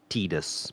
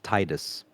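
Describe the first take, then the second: First: The name is said the new, official way. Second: The name is said the familiar, assumed way. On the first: This is the official way to say it. The speaker calls it right. "It is pronounced Titus" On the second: This is how the speaker had always said it. The speaker calls it wrong. "It's not pronounced Titus"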